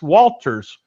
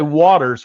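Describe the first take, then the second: First: The name is said with an L sound. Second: The name is said without an L sound. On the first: The speaker calls it right. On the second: The speaker calls it wrong.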